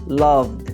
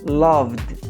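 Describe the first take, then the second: Both takes have the same delivery.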